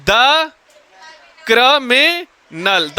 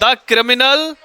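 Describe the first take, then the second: First: "criminal" very slowly, broken into cri, mi, nal; syllable by syllable. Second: Said in the usual way. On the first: Shown as a demonstration. Teacher dictating the object to class, syllable by syllable. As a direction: draw out each syllable of "criminal" separately.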